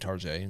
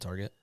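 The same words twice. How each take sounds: First: It is pronounced in a fancy-sounding way. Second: It is pronounced in a plain, ordinary way.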